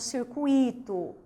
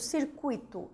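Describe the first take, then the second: First: The stress falls on the syllable i. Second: The stress falls on the syllable cu. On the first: The speaker calls it wrong. "e não circuito" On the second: The speaker calls it right. "circuito e não"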